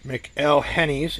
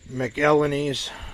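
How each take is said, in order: First: The H in the middle is sounded. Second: The H in the middle is silent.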